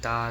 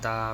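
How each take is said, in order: The two takes are said the same way.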